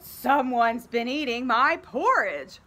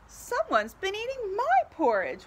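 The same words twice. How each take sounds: First: It is roared loudly in Papa Bear's voice. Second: It is wailed tearfully in Mama Bear's voice.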